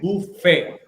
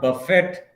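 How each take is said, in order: First: The final T sound is silent. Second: The final T sound is pronounced. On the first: The speaker calls it right. "It is buffet. The last T is silent letter" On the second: The speaker calls it wrong. "It is not buffet"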